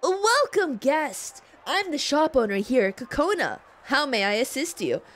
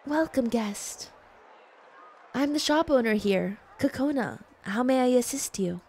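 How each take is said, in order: First: Shopkeeper voice. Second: Gentle and polite. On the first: Voicing shopkeeper character. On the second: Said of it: "you guys want like gentle?". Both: Acted.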